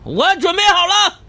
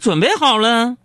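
First: It is said loudly and impatiently. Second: It is said calmly at normal volume.

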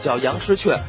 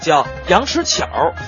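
First: It is said in Standard Mandarin. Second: It is said in Beijing dialect.

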